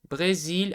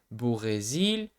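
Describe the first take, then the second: First: The word is said at normal length. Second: The word is stretched out slowly.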